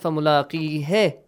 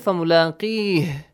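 First: The word ends with a final vowel. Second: The word ends without a final vowel. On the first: The speaker calls it wrong. "Why not فملاقيه?" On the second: The speaker calls it right. "Why did we say فملاقيه? ... The last letter, you don't pronounce the haraka"

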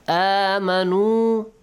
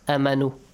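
First: The first vowel is held long. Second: The first vowel is cut short. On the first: The speaker calls it right. "Each of them is extended for two counts" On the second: The speaker calls it wrong.

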